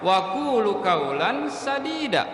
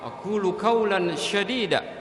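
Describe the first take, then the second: First: The last word begins with an 's' sound. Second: The last word begins with an 'sh' sound. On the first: Speak words that are good and right. The speaker calls it right. "Harusnya huruf sin" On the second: Speak harsh words. The speaker calls it wrong. "ini menggunakan huruf sya"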